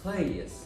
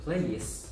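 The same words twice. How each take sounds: First: The word ends with a hissing S sound. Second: The same.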